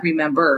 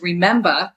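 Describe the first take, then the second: First: Said in the usual way. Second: "remember" said as re-MEM-ba, r dropped; Jersey pronunciation. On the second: Shown as a demonstration. Author showing her chapter title, "remember" as Jersey re-MEM-ba. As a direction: say "remember" with a final -ba. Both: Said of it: "not remember".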